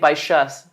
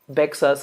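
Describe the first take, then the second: First: The middle consonant is a 'sh' sound. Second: The middle consonant is not a 'sh' sound. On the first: The speaker calls it right. "you say Baixas" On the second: The speaker calls it wrong. "You don't say Bexus"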